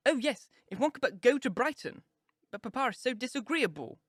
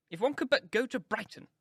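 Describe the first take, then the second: First: Put-on high, eager sighing girl; gushing girl. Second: Wistful mother. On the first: Lydia echoing her mother, high and gushing. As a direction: echo the wish with a girlish gush. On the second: Mrs Bennet wishes aloud. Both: A narrator's reading.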